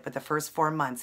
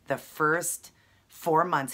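First: Said in the usual way. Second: The first four months drawn out slowly and louder, stress on four; proud, slow emphasis on four months; emphatic slow. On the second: Real, not acted. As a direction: lean on four to make the feat sound huge. Stressing brother's fast weight loss.

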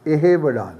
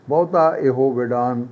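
First: ਇਹ said short with no o, firmly; correct reading. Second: ਇਹੋ said with a full o ending, as it should not be read; wrong reading. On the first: Teacher giving students the right short ਇਹ. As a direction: give ਇਹ short before ਵਿਡਾਣ. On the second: Teacher warning students: this is how not to say ਇਹੋ. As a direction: demo the mistake with ਇਹੋ and a long o. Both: Shown as a demonstration. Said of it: "ਇਹਨੂੰ ਇਹ ਨਹੀਂ ਪੜ੍ਹਨਾ".

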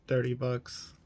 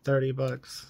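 First: Said in the usual way. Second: "thirty" pushed up firmly; stress on thirty. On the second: Real, not acted. Repeating the price to viewers, "thirty" stressed. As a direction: hit "thirty" to drive it home.

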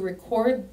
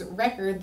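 First: "record" stressed on second syllable; misread stress. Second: "record" stressed on first syllable; corrected stress. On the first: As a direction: say "record" like the verb, re-CORD. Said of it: "what? Hold on". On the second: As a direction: say "record" like the noun, REC-ord. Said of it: "Hold on". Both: Real, not acted.

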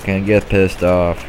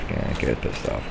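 First: Said in the usual way. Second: Much softer and lower, muttering "Can't get pissed off." to yourself; quiet self-calming mutter. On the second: Real, not acted. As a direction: talk yourself down under your breath. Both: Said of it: "Calm down".

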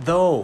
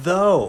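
First: Though said very slowly, a drawn-out "oh". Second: Though with a long "oh", falling, a bit louder. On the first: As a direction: stretch the "oh" in though. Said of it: "though เสียงโอครับ". (though ช้าๆ ลากเสียงโอ) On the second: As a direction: teach though with a clear "oh". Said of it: "ต่อไปนะครับ". (คำว่า though ออกเสียงโอ) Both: Shown as a demonstration.

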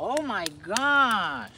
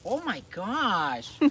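First: Even louder, slow delight; drawn-out, thrilled praise; excited praise. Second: Loud, slow, delighted praise; excited praise. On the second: Praising dog loudly. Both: Real, not acted.

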